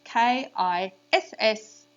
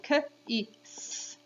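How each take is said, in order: First: "K I S S" spelled slowly, "S S" chanted sing-song; name each letter of "K I S S", lilting on the double "S S". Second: "K, I, S" as separate phonemes, kuh, short i, sss; sounding out. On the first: Teacher highlights the digraph for children, sing-song "K I S S". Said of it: "in a sing-song voice to highlight". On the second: Teacher has children repeat after her, segmented "K, I, S". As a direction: say "K, I, S" sound by sound, with gaps. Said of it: "So repeat after me". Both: Shown as a demonstration.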